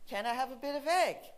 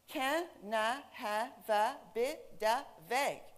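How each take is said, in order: First: It is said smoothly as one connected phrase. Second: It is said slowly, one linked syllable at a time.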